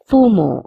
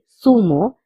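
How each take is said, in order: First: The word begins with a th sound. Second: The word begins with an s sound. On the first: This is how it is said in Spain. "Notice that I'm saying zumo all the time" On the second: This is how it is said in Latin America. "you can also say sumo because Z has the pronunciation of so also"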